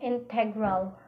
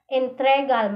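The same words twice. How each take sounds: First: Said in the usual way. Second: Integral said as "intregal"; shifted r. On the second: Shown as a demonstration. Teacher showing students a sound swap, Integral as "intregal". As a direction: move the r forward in Integral, "in-TRE-gal". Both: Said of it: "mahimong integral".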